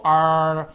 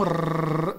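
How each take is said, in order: First: R as a long held "arr", no trill; American R. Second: R as a long rolled trill; Brazilian R. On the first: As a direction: hold a curled American R. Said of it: "no inglês americano eles pronunciam como". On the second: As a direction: roll the R on and on. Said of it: "aqui no Brasil a gente pronuncia como". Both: Shown as a demonstration.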